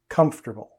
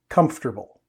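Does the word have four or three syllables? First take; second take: three; three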